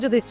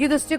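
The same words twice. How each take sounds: First: The word begins with a j sound. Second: The word begins with a y sound.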